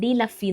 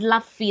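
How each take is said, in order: First: The D is said as its own syllable. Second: The D runs straight into the next sound. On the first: The speaker calls it right. "എന്നാണ് ഇത് വായിക്കണ്ടേ" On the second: The speaker calls it wrong. "ഞാൻ അന്ന് ഡ്ലഫി എന്നാ വായിച്ചേ"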